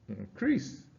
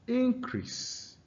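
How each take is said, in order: First: The stress is on the second syllable. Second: The stress is on the first syllable. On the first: It is a verb meaning to grow. "it occurs on the second syllable when it is a verb" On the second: It is a noun meaning a rise. "the stress is on the first syllable"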